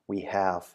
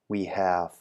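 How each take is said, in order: No difference in how they are said.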